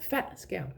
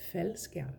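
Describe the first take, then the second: First: Faldskærm with a glottal break after fald, slow; wrong way, with stop. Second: Faldskærm with fald flowing straight into skærm; softer, no stop. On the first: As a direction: catch fald in the throat before skærm. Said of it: "It's not faldskærm". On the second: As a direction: glide through faldskærm with no break. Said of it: "that is a softer pronunciation". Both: Shown as a demonstration.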